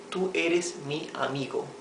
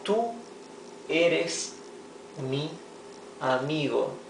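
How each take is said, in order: First: Said in the usual way. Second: Slow word-by-word reading. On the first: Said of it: "teacher repeats sentence normally". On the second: Shown as a demonstration. Teacher reading an example to students word by word. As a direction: spell out the sentence slowly for learners. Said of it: "teacher reads example word by word".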